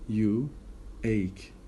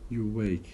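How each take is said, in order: First: The words are said separately without linking. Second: The words are linked with a w sound.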